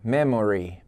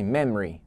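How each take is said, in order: First: The middle vowel is fully pronounced, three syllables. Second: The middle vowel is dropped, two syllables. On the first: This is how it is sung in the song. "ele fala a letra O" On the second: This is how it is said in everyday speech. "você pode tirar o O"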